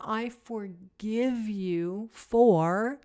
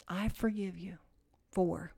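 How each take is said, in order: First: Slow self-forgiveness. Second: Soft repeated forgiveness. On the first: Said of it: "really, it's seven times". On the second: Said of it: "seven times". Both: Shown as a demonstration.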